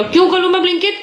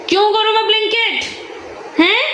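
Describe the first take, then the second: First: High, rising mock refusal; mother's mock refusal, pitched up; teasing protest. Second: Even higher, falling, hammed-up refusal; mother overplaying her refusal to the son; exaggerated protest. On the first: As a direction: refuse him playfully. Repeating the protest to son. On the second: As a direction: stretch the refusal in mock outrage. Repeating the protest, stronger. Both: Real, not acted.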